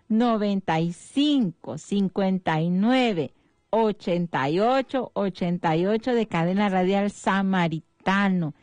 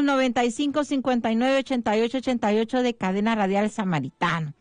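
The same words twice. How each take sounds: First: The number is said at a slow pace. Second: The number is said at a fast pace.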